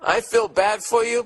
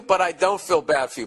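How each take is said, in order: First: "for" stretched and leaned on, higher; stress on for. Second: "but" hit first, then falling to "don't"; stress on but. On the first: Host teasing the letter writer, leaning on "for". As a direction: press on "for" in "I feel bad for you". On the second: Host reversing his sympathy for the writer, hitting "but". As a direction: punch "but" and let "I don't feel bad for you" drop. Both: Shown as a demonstration.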